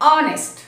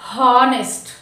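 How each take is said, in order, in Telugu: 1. ఈ పదం అచ్చుతో మొదలవుతుంది, h లేదు. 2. ఈ పదం స్పష్టంగా వినిపించే h ధ్వనితో మొదలవుతుంది. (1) "we should not pronounce it's ఆనెస్ట్" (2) "not హానెస్ట్"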